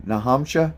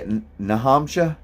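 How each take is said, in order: First: Put-on amused New Hampshire accent on "Nahamsha". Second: Put-on "Nahamsha" in a light New Hampshire accent, r dropped and vowels run together; playful New Hampshire accent on "Nahamsha". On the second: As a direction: imitate how New Hampshire locals say "Nahamsha". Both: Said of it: "how do they say it?".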